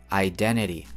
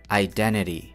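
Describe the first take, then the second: Both takes have the same delivery.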